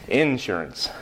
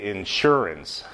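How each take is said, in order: First: The stress is on the first syllable. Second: The stress is on the second syllable. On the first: This is how southern speakers say it. "In the South, in North Carolina, people pronounce it like you just did" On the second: This is how northern speakers say it. "Most Northerners will say insurance, putting the accent on the second syllable"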